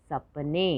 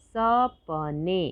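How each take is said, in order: First: Said in the usual way. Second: सपने slowly split as स, प, ने; three separate beats in सपने; syllable by syllable. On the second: Shown as a demonstration. Teacher sounding out सपने for learners, syllable by syllable. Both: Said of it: "तो शब्द पढ़ते हैं".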